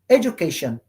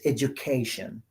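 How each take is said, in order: First: The stress is not on the third syllable. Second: The stress is on the third syllable. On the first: The speaker calls it wrong. "you will say education, education. No" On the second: The speaker calls it right. "it's education. ... you stress the syllable before T I O N"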